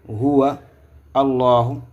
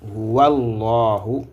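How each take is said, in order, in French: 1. Les deux mots sont dits séparément. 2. Les deux mots se disent d'un seul tenant. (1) "La lecture de chaque mot" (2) "il y a une liaison qui a lié ici"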